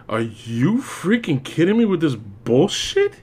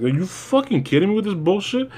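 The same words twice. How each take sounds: First: Slow, weary incredulity; drawn-out disbelief. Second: Higher, incredulous rant; exasperated outburst. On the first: Reviewer fed up with the armored Batman, slow and weary. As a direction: drag out each word, fed up. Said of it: "But I'm just there like this, like". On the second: Reviewer venting at the silly transformation, higher and incredulous. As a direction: throw up your hands in disbelief. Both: Retold or imitated.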